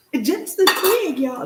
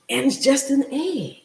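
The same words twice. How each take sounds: First: "just an egg" said higher and louder; higher, louder marvelling repeat; amazed emphasis. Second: Said in the usual way. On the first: Real, not acted. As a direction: lift and punch "It's just an egg" in wonder.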